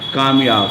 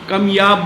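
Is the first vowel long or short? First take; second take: long; short. First: The first vowel is long, as in kaam. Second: The first vowel is short, as in kam. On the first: Someone fully successful in every field. "एक लफ़्ज़ है कामयाब" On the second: Someone rare, of whom there are very few. "अब मैं इसको कमयाब बोल रहा हूँ"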